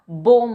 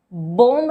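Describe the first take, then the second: First: बोम with silent b, ending on m; correct pronunciation. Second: बोम said as bomb with the b sounded; wrong pronunciation. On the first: Teacher models the right way, बोम without b. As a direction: say बोम, no b at the end. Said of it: "बोम होता है". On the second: Teacher shows the wrong way, बोम with b. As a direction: say बोम with a final b. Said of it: "बोम नहीं होता". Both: Shown as a demonstration.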